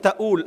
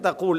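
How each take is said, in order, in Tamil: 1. நடுவிலுள்ள மெய் ஒரு குளோட்டல் ஸ்டாப். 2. நடுவிலுள்ள மெய் ஆழமான 'q' ஒலி. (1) "அந்த காஃபை வந்து அலிஃபா ஹம்சாவா உச்சரிப்பேன்" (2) "நீ என்ன சொல்கிற இடத்துக்கு தகூல்"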